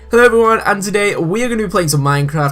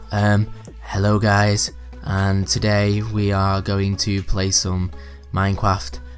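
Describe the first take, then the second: First: It is said in a lively, enthusiastic tone. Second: It is said in a flat, bored tone.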